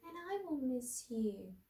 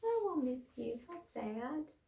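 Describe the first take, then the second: First: Sad and softer, a little higher. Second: Quiet, sad, a little higher; teacher repeating Mouse's line, sad and soft. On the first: A narrator's reading. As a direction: let the voice drop to a sad hush. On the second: Shown as a demonstration. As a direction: say it gently and sadly. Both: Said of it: "in a sad, soft voice".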